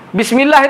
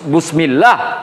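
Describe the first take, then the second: First: The first vowel is an i sound. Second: The first vowel is a u sound. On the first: The speaker calls it right. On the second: The speaker calls it wrong.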